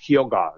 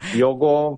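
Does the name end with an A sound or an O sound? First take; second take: A sound; O sound. First: The final vowel is an open A sound. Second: The final vowel sounds like an O. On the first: "es como más Hyoga, ¿no? O sea, como que se te llena ahí al final" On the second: "una O un poco así como O"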